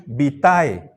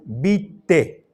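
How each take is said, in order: First: "vitae" as bi-TA-e; "vitae" with the full AE diphthong sounded; classical Latin pronunciation. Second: "vitae" said as BI-te; two-syllable "vitae", the A silent; Castilian pronunciation. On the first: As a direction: say "vitae" just as written, A and E both heard. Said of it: "Se pronunciaba como está escrito". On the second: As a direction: say "vitae" with AE as a single E. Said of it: "la pronunciación castellana de esta palabra". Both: Shown as a demonstration.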